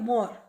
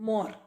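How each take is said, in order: The two takes are said the same way.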